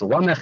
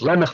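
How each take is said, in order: First: The first vowel sounds like 'ah'. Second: The first vowel sounds like 'eh'. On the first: This is the form at a pause in the verse. "it's Lamech in the pasuk" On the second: This is the usual everyday form. "I said Lemech before"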